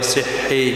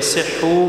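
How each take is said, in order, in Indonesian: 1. Kata ini diakhiri dengan vokal i. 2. Kata ini diakhiri dengan vokal u. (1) "dibaca kasrah karena kaidah as-sakinu idza hurrika hurrika bil kasrah" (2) "dibaca duma ikut kepada baris asal"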